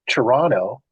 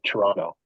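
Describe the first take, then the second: First: The second t is clearly pronounced. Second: The second t is left out. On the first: The speaker is not from Canada. "everyone always says Montreal and Toronto" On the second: The speaker is from Canada. "the second T, if you're from Canada, you never say it"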